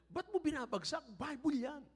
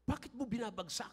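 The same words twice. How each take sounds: First: Much higher child voice, mock scolding; imitating a child. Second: A lightly voiced grandson, higher; mock the boy's complaint; imitating a child. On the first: Grandfather imitating his grandson scolding him, high child voice. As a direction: play the pious little boy. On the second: Grandfather quoting his annoyed grandson, lightly voiced child. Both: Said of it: "Sabi niya".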